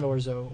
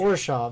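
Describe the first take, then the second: First: The name ends in an open o vowel. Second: The name ends with a sh-ov v sound. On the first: The speaker calls it wrong. "It's not Orzo. Orzo is a type of pasta" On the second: The speaker calls it right. "I need to remember Orshov"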